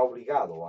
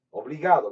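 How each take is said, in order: First: Said in the usual way. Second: Obligado punched much louder, falling; stress on Obligado. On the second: Real, not acted. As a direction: hit the word Obligado hard.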